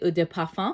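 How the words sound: It is said with French-style pronunciation.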